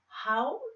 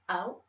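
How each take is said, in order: First: The word begins with a clear H sound. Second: The word begins without any H sound. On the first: This is how other people say it. "when the other people say how" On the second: This is how the French say it. "we do not say that in France. Oh no, we say how"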